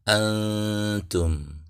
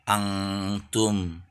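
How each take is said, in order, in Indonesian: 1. Sengau itu bunyi n yang samar dan lembut. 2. Sengau itu diucapkan seperti bunyi ng. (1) "Dengan bunyi N yang samar" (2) "mengeneralisasi bunyi ikhfa sebagai bunyi eng"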